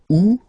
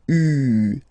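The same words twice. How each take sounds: First: The vowel is said with a wide, open sound. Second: The vowel is said with a narrow, tight sound. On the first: The speaker calls it wrong. "that's the, the mistake people tend to make. They pronounce it like U" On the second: The speaker calls it right. "it's really U, U. So really narrow sound"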